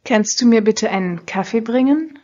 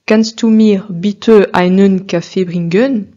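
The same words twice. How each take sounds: First: Kannst du mir bitte einen Kaffee bringen? with German stress, endings light; natural native Kannst du mir bitte einen Kaffee bringen; correct German. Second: Kannst du mir bitte einen Kaffee bringen? with word ends stressed, slow; slow French-accented Kannst du mir bitte einen Kaffee bringen; French-style end stress. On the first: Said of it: "Essayez de reproduire la seconde prononciation". (prononciation allemande correcte) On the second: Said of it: "Essayez d'entendre la différence entre ces deux prononciations". (accent tonique en fin de mot, à la française)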